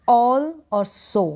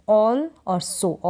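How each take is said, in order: Both takes have the same delivery.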